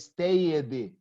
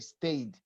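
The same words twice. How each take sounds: First: The ending is said as an extra syllable. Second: The ending is only a bare d sound. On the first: The speaker calls it wrong. "I don't say stayed" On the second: The speaker calls it right. "I pronounce only the D"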